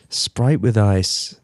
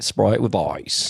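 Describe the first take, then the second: First: Slow, low Australian "Sprite with ice"; a halting Australian accent try; Australian accent attempt. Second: Slow, drawn-out Australian "Sprite with ice"; Australian accent, slow and drawn. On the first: Shown as a demonstration. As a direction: drawl it out like an Australian ordering a drink. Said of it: "It doesn't sound good when I say it". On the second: Retold or imitated. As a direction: stretch the vowels like an Aussie on a plane. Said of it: "It was basically like".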